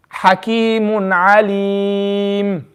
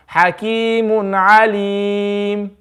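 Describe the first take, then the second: First: Alim ending on a plain silent sukoon, lips closed; slow drawn-out Hakimun Alim, plain sukoon stop; stop with iskan. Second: Alim ended silent while the lips round toward a dhamma; slow Hakimun Alim with rounded lips at the stop; stop with ishmam. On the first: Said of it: "this is me doing it with iskan". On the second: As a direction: round the lips at the end of Alim without sound. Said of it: "This is ishmam". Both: Shown as a demonstration.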